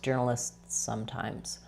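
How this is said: A tiny pause separates the two words. "or I can make a tiny pause"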